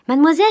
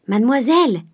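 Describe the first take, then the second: First: High, loud call across the yard. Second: A mildly raised call. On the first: Nanon calls up to Mademoiselle through the window, high loud call. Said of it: "cria-t-elle par la croisée". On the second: The cook calls to Mademoiselle, mildly raised call. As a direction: call out to her, only a little higher. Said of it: "cria la cuisinière". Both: A narrator's reading.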